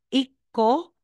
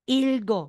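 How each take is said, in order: First: No l sound is heard before the k. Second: An l sound is heard before the g. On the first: The speaker calls it wrong. "instead na sasabihin mong iko" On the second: The speaker calls it right. "magiging ilgo"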